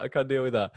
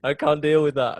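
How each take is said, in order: First: Mock panic. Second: Higher, louder panicked wail; overwhelmed, can't face it; mock panic. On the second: Imagining losing his mum, mock panic. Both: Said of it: "I'd just be like".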